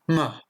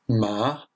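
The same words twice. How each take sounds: First: The pitch falls sharply and is short. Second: The pitch starts mid and rises high. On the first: It means to insult. "un ton descendant et bref" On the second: It means hemp. "moyen, entre aigu et grave, puis on va aller dans les aigus"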